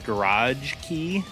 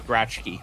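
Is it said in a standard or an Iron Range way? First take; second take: standard; Iron Range. First: It is said in a standard way. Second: It is said in an Iron Range way.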